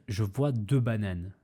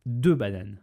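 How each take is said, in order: First: Said in the usual way. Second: «Deux bananes» lancé plus fort, appuyé sur «Deux»; martèle «Deux» pour souligner; insistance sur deux bananes. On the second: Shown as a demonstration. Répète les deux bananes. (accent d'insistance sur «Deux»)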